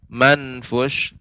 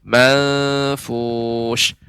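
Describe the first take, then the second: First: The n is pronounced fully and distinctly. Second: The n is softened and nasal, blending onward. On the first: The speaker calls it wrong. "tidak manfush" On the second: The speaker calls it right. "pengucapan ikhfa ya. Manfush"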